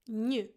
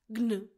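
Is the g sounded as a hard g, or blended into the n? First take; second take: blended; hard g. First: The g blends into a soft ny sound. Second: A hard g is sounded before the n. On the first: The speaker calls it right. "G-N is pronounced gnu" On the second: The speaker calls it wrong. "It is not gnu"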